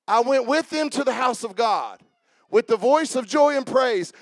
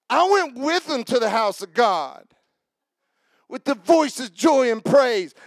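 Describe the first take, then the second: First: It is read in a plain, neutral way. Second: It is read in an emotional, charged way.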